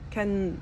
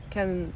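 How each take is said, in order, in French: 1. Le T du milieu est omis. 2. Le T du milieu est omis.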